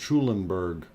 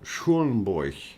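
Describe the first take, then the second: First: The name is said with English pronunciation. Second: The name is said with German pronunciation.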